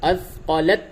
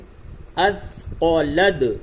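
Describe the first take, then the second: First: The final sound is a t. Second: The final sound is a d. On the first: The speaker calls it wrong. "अथक़लत नहीं बोलेंगे" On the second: The speaker calls it right. "ता से नहीं बल्कि दाल से मिलाएंगे"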